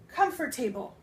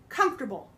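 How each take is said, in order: First: The word is said in separate full parts. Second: The word is said quickly, run together. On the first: The speaker calls it wrong. "So you would think that it's comfortable" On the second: The speaker calls it right. "the way that we say it is comfortable. It runs together"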